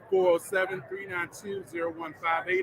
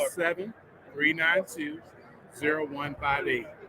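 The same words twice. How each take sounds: First: The number is said at normal speed. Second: The number is said more slowly.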